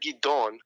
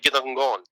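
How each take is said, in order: First: The name is said plainly, without a guttural sound. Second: The name carries an added guttural ayin sound. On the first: The bearer would not recognize his own name. The speaker calls it wrong. "If you said Gidon, he wouldn't... acknowledge" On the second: This is how the name was originally said. The speaker calls it right. "the pronunciation of his name is probably Gidon because it's spelled with an ayin"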